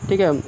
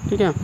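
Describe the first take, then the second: No difference in how they are said.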